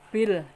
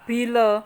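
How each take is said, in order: First: The word ends on the l sound. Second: The word ends with an added a vowel. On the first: The speaker calls it right. "perhatikan bil" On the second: The speaker calls it wrong. "jangan bila"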